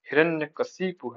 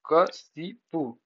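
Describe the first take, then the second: First: Said in the usual way. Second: Slow, broken-up क-शि-पु; syllable by syllable. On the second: Shown as a demonstration. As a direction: spell out Kashipu in separate syllables. Repeats word end for spelling. (Kashipu, धीरे-धीरे अक्षर तोड़कर)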